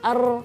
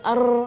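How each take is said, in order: No difference in how they are said.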